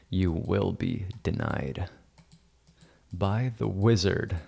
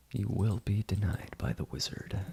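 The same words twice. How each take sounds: First: Slow, lightly played wizard pronouncement; mock wizard decree. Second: Hushed mock wizard. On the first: Editor playing wizard refuses Amy, mock-solemn decree. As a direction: pronounce it slowly like a pretend wizard. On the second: Editor playing wizard repeats refusal to Amy, hushed. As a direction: repeat the decree softly, as a mock threat.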